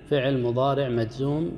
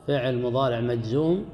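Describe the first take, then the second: No difference in how they are said.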